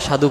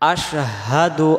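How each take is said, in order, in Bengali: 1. শব্দটি 's' ধ্বনি দিয়ে শুরু হয়। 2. শব্দটি 'sh' ধ্বনি দিয়ে শুরু হয়। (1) "তাহলে দেখেন কি ভুল হয়ে যাবে" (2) "শিন অক্ষরটাতে"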